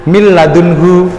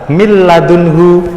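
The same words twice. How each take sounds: The two takes are said the same way.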